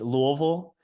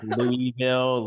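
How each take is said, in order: First: It is said the way locals say it. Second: It is said the way outsiders say it. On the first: The speaker is from the city. "it's Louisville" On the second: The speaker is not from the city. "I know people say like Louisville"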